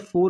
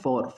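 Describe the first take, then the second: First: The word is said to sound like 'four'. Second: The word is said to sound like 'for'. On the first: The speaker calls it wrong. "फोर नहीं, फोर तो होता है F O यू आर" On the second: The speaker calls it right. "मैं बोलना चाह रहा हूँ फॉर"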